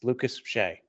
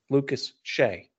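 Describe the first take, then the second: First: The names run together without a pause. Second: There is a pause between the names.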